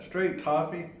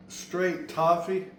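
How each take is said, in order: First: Straight toffee said briskly with stress on straight; quick repeat. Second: Straight toffee stretched out slow; drawn-out emphasis. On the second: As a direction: savor the words straight toffee slowly. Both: Shown as a demonstration. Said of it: "I don't know if y'all can say that".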